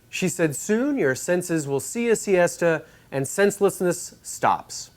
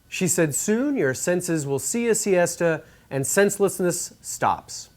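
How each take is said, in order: First: The S sounds are tamed and less hissy. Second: The S sounds are sharp and prominent. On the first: "with the T A one V P's de-esser engaged" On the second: "without any de-essing"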